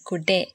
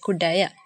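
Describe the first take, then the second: First: The word ends with a short 'e' sound. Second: The word ends with a full 'aya' sound. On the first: This is how people actually say it. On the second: This is the full written form.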